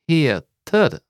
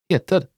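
First: The word is said slowly. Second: The word is said fast.

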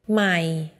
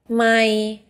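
First: The pitch stays low throughout. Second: The pitch stays level in the middle range. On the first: It means new. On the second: It means mile.

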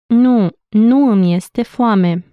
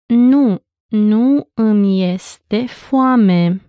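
First: It is said at normal speed. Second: It is said slowly.

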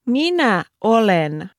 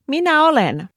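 First: It is said slowly. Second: It is said at normal speed.

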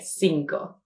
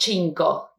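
First: The first sound is an s sound. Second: The first sound is a ch sound. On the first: The speaker calls it right. "like an S sound" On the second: The speaker calls it wrong. "it's not cinco, never cinco"

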